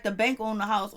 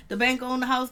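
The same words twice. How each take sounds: First: Said in the usual way. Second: Laughing as she repeats it; repeating Nikki's line through laughter. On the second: Real, not acted. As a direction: crack up on the line.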